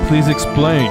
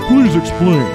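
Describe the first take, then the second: First: It is said in the speaker's ordinary voice. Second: It is said in a put-on old man voice.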